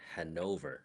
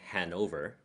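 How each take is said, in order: First: The stress is on the second syllable. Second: The stress is on the first syllable. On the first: This is the German way of saying the name. "You hit the second syllable harder" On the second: This is the English way of saying the name. "in English they say Hanover"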